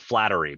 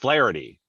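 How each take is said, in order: First: The T sound comes before the R sound. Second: The T sound comes after the R sound. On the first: The speaker calls it wrong. "I always want to put the T in a different spot. I want to call it Flattery, but it's not" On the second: The speaker calls it right. "It's Flaherty, right?"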